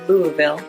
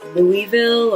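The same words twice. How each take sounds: First: Sounds are dropped and it flows smoothly. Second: All the letters are sounded in full. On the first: This is how locals say it. "take out a lot of those letters ... Very smooth" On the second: This is how an outsider assumes it is said. "what I thought was Louisville"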